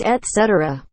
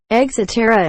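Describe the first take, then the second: First: ET CETERA with a clear T; correct et cetera. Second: ET CETERA as eg-zetera; wrong et cetera. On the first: Shown as a demonstration. Correcting the common errors, clear ET CETERA. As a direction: say ET CETERA as et-SET-er-a. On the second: Retold or imitated. Mocking common errors, eg-zetera for ET CETERA. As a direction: turn the T into G-Z in ET CETERA. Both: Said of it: "It's et cetera".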